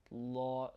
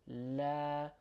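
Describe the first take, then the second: First: "La" with a dark l, rounded like "law"; long, rounded "La"; heavy "or" sound. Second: "La" with a light, open "a" as in cat; long light-l "La"; light "a" sound. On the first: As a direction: make the "La" heavy and back. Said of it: "we're not saying or". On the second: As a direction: keep the "La" thin, not "or". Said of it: "the a sound". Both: Shown as a demonstration.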